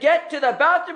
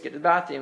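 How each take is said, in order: First: It is said in a loud, raised voice. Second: It is said in a calm, normal voice. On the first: The speaker means business now. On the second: It is a routine reminder that can be ignored.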